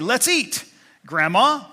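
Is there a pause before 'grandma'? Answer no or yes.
yes. There is a pause before the last word. The listener is being called to the meal.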